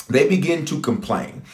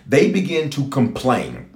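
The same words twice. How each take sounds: First: Said in the usual way. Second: Slow emphasis. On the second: Real, not acted. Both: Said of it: "repeated for emphasis".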